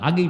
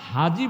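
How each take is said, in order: First: The middle consonant is a hard g sound. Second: The middle consonant is a soft j sound. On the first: "হাগি বলে" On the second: "হাজি বলতে পারে না"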